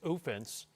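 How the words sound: It is said in a put-on Canadian accent.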